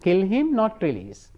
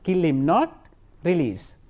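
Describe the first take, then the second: First: The pause comes right after 'kill him'. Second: The pause comes right after 'not'.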